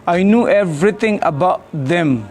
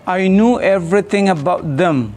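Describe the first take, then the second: Both takes have the same delivery.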